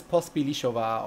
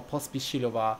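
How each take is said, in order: First: Pospílišova, with "li" before "šo"; alternative name pronunciation. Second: Pospíšilova, with "ši" before "lo"; alternative name pronunciation. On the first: Trying to recall a film credit name, Pospílišova with l before sh. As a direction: say Pospílišova as pos-pee-lee-SHO-va. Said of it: "I think it was Pospílišova or". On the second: Offering the other version of the credit name, Pospíšilova with sh before l. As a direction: say Pospíšilova as pos-pee-shee-lo-va. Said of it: "or Pospíšilova". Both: Shown as a demonstration.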